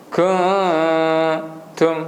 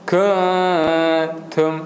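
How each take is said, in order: No difference in how they are said.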